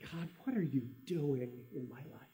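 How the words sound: It is said with a tone of frustration.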